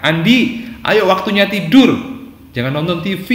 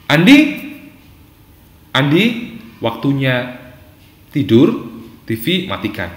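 First: High, loud scolding order; snapping parent. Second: Measured, gently firm parent; firm but gentle. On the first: Parent ordering Andi to bed and off the TV, snapping. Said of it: "dinasihatkan orang tua dengan bentakan itu". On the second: Parent telling Andi it is bedtime, firm but gentle. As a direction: give the order calmly, with pauses between phrases. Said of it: "ketegasan Anda dengan suara yang lembut". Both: Shown as a demonstration.

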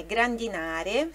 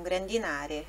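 First: Grandinare again with na stressed, rising at the end; a teacher repeating grandinare to show the stressed syllable. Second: Grandinare with the stress on the na syllable; a teacher modelling the stressed syllable of grandinare. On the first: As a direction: land on na in grandinare. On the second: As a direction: hit the na in grandinare. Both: Shown as a demonstration. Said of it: "a sílaba tônica é grandinare".

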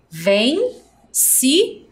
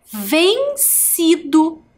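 First: Vencido stretched syllable by syllable; slow syllables. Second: Vencido drawn out high and slow; slow, high reveal. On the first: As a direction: count it out slowly. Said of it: "Quantas sílabas". (devagar, sílaba por sílaba) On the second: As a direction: unveil the word slowly. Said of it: "Quantas sílabas eu tenho a palavra vencido". (revelando a palavra devagar e agudo) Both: Shown as a demonstration.

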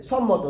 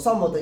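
No difference in how they are said.

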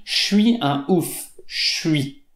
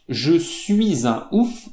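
First: «Je suis» squeezed into «chui», «chui un ouf»; elided fast speech. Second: «Je suis un ouf» said slowly with every sound of «Je suis» sounded, jeu-suis; careful full form. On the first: Teacher showing learners the real spoken form, elided «chui». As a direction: swallow the «e» of «Je» so «Je suis» becomes «chui». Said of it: "on dit". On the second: Teacher showing learners the form nobody uses, slowly and fully pronounced. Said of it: "On ne dit pas". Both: Shown as a demonstration.

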